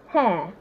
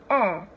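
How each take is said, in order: First: The word begins with an h sound. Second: The word begins with a vowel, no h. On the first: The speaker calls it wrong. "you're totally not correct" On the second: The speaker calls it right. "It's air and not hair"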